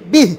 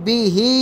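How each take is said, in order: First: The word ends on a bare consonant. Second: The word ends with a short vowel.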